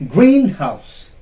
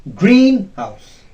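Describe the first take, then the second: No difference in how they are said.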